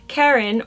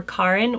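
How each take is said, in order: First: Karen said as CARE-en; English pronunciation. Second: Karin said as KAH-rin; Swedish pronunciation. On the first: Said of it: "I'm saying Karen". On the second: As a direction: open the first vowel of Karin to "ah". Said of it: "in Swedish it would be Karin". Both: Shown as a demonstration.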